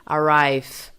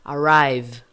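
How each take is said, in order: First: ARRIVE ending in a voiceless F, "arrife". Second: ARRIVE ending in a buzzing V; voiced final V. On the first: Teacher shows the wrong way, V as F. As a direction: let the buzz die into F in ARRIVE. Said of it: "seu V como som de F". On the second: Teacher corrects the F version, voiced V. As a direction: keep ARRIVE vibrating to the end. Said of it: "O V tem que vibrar". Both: Shown as a demonstration.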